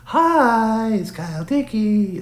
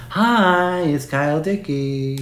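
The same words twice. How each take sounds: First: Even higher squeaky mock of the hack impression, slowed down; very high, stretched-out parody greeting of a hack impressionist; Kyle Dickey impression. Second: Mocking a hack impression, pitched much higher and a bit slower; high, drawn-out parody greeting of a hack impressionist; Kyle Dickey impression. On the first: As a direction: push the parody further up in pitch. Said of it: "He's like". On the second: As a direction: spoof a cringey celebrity-voice greeting. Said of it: "his worst hack impression is Kyle Dickey".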